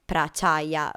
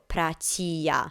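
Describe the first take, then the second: First: The name ends with a longer 'chaya' sound. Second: The name ends with a short 'chia' sound. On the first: The speaker calls it wrong. "not Prachaya" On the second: The speaker calls it right. "his full name is pronounced as Sinto Prachia"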